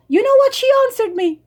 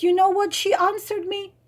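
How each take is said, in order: First: Higher, faster, louder, disbelieving; incredulous repeat. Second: Said in the usual way. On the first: Real, not acted. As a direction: hit it again in disbelief.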